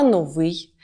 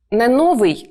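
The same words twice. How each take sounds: First: "новий" as no-VYI, stress on the last syllable; correct final stress. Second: "новий" as NO-vyi, first syllable punched; wrong first-syllable stress. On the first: Teacher gives the Ukrainian norm, "новий" stressed on the second syllable. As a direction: land the stress on ВИЙ in "новий". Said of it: "адже ми говоримо не новий на зразок російської мови". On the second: Teacher repeats the Russian-style mistake, "новий" stressed on the first syllable. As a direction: lean hard on НО in "новий". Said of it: "на зразок російської мови". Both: Shown as a demonstration.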